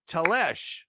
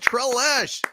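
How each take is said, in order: First: The name begins with a plain T sound. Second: The name begins with a T and r cluster. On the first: The speaker calls it right. "I believe is the way you pronounce it" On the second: The speaker calls it wrong. "not Tre"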